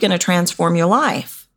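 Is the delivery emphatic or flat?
flat. It is said flat, with no words stressed. Nothing in the offer sounds important. The speaker calls it wrong. "You know what I heard?"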